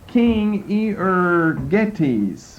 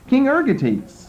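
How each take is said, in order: First: The name is said with every Greek syllable. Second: The name is said in a shortened form. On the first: The speaker calls it wrong. "I'm just giving you all the Greek syllables in there" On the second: The speaker calls it right. "Ergetes sounds better to me. It's easier to say"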